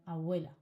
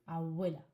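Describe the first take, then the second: The two takes are said the same way.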